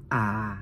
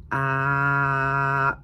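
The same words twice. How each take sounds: First: A drawn out on a low pitch. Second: A held long on a level mid pitch. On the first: Student showing the Thai low tone, A held low. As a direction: drop the A low and hold it. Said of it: "ou bien soit low tone". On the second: Student showing the Thai mid tone, A held level. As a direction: sustain A steadily at middle pitch. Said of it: "soit mi-tone". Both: Shown as a demonstration.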